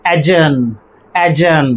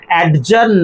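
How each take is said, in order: First: অ্যাডজার্ন with silent d, "a-jurn"; correct pronunciation. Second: অ্যাডজার্ন with the d sounded, "ad-jurn"; wrong pronunciation. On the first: Teacher modelling adjourn without d, correct pronunciation. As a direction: drop the d in অ্যাডজার্ন, falling tune. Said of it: "আমাদের প্রনাউন্সিয়েশনটা কি হবে?". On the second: Teacher showing the form to avoid, wrong pronunciation. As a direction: sound a clear d before j in অ্যাডজার্ন. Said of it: "অ্যাডজার্ন নয়". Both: Shown as a demonstration.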